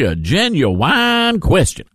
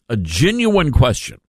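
First: It is said in a rural Mississippi accent. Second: It is said in the speaker's usual accent.

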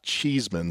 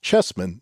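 First: The first vowel is a long 'ee' sound. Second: The first vowel is a short 'e' sound. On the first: The speaker calls it wrong. "not Cheeseman" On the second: The speaker calls it right. "in fact, his name is pronounced Chessman"

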